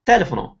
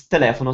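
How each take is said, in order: First: Telefono wrongly stressed on first syllable "te". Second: Telefono stressed on "le"; correct second-syllable stress. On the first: Teacher shows the mistaken guess, TE-lefono stressed. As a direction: punch TE in telefono, as in English telephone. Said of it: "so you stress the te". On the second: Teacher corrects the mistaken guess, te-LE-fono stressed. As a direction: punch LE in te-LE-fono. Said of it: "now you heard that it's". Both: Shown as a demonstration.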